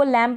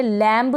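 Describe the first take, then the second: First: लैम ending on m, no b; लैम with the final b left silent. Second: लैम्ब with an audible b at the end; wrong sounded B. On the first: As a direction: say लैम and stop on the m. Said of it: "इसको लैम पढ़ेंगे". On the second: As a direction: say लैम्ब, releasing a b after the m. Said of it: "लैम्ब नहीं पढ़ेंगे". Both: Shown as a demonstration.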